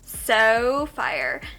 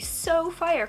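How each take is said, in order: First: It is said in a put-on Valley Girl voice. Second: It is said in her ordinary speaking voice. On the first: The speaker calls it right. "I gotta do the Valley Girl voice" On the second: The speaker calls it wrong. "Or wait, no"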